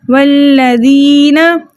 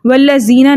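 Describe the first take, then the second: First: वल्लज़ीना slowly recited with thin dh, never z; soft dhal. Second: वल्लज़ीना spoken quickly with z in place of dhal; wrong z sound. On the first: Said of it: "हमने कैसे पढ़ना है". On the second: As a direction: show the mistake: buzzing z in वल्लज़ीना, no long stretch. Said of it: "इसको जा नहीं पढ़ना". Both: Shown as a demonstration.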